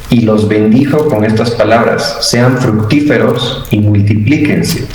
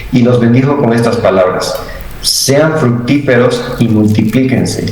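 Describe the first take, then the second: The two takes are said the same way.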